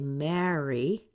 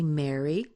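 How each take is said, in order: First: It is said the East Coast way, unlike Mary. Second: It is said the West Coast way, like Mary. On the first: "People on the East Coast tend to say marry, the second one" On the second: "people on the West Coast tend to say Mary, like my name"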